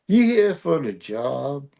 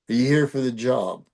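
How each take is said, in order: First: It is said in a Cajun accent. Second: It is said in a standard, non-Cajun accent. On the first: "A little bit more of a Cajun deal" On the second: "instead of the first line being"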